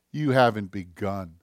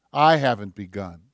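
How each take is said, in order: First: "haven't" leads, falling low after it; stress on haven't. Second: "I" hit firmly, then falling away; low admission, emphatic opening "I"; stress on I. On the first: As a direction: lean on "haven't", low and measured. Turns the challenge from listeners to himself. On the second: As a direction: put the weight on "I", owning it. Turns the challenge onto himself. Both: Real, not acted.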